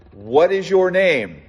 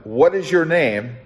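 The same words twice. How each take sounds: First: Higher, slow, weighted "What is your name?"; God pressing Jacob slowly for his name; slow emphatic question. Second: Said in the usual way. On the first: Acted. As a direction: lean into "your" and let it hang.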